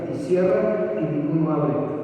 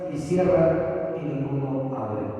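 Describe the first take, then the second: The two takes are said the same way.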